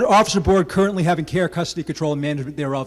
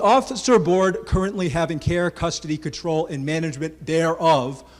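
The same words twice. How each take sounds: First: The phrase is read at a faster pace. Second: The phrase is read at a slower pace.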